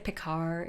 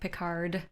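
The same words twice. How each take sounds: First: The final D sound is dropped. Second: The final D sound is clearly pronounced. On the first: The speaker calls it wrong. "You don't say Picard" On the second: The speaker calls it right. "It's like Picard"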